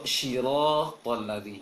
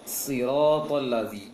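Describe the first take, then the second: First: The first sound is sh. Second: The first s is thick and heavy. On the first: The speaker calls it wrong. "Itu keliru" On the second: The speaker calls it right. "tebalkan sedikit"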